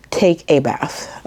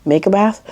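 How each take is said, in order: First: Said in the usual way. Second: "Make a bath?" rising, puzzled at own words; questioning "Make a bath?" with a lifted end; puzzled self-question. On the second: Real, not acted.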